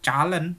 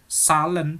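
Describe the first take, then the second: First: It begins with a ch sound. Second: It begins with a plain s sound. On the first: "bukan calen" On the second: "bukan salen"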